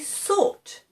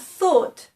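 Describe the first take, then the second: First: The word begins with an s sound. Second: The word begins with a th sound. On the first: The speaker calls it wrong. "they might say thought" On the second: The speaker calls it right. "instead of thought"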